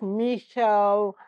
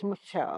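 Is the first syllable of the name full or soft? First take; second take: full; soft. First: The first syllable is said as a full syllable. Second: The first syllable is a soft, reduced M sound. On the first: The speaker calls it wrong. "Not Michelle" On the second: The speaker calls it right. "it's Michelle. Soft M shell"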